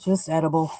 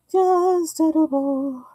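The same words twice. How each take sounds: First: Said in the usual way. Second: High, drawn-out singsong; playful singsong. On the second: Pretend. Vlogger playfully echoing her own remark, singsong. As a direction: stretch it out high, gliding slowly down.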